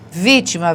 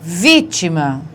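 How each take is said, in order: First: Said in the usual way. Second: Vítima slow with the weight on VÍ; stressed syllable shown. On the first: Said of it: "não é a última". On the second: Shown as a demonstration. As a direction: lean on the first syllable of Vítima. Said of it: "não é a última, não é a penúltima". (Vítima devagar, forte no VÍ)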